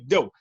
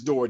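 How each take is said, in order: First: The final r sound is dropped. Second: The final r sound is clearly pronounced. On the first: This is how the speaker's own community says it. "But in our communities, we say dough" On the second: This is the standard school pronunciation. "the word door is door, D O O R. That's how you learn in school"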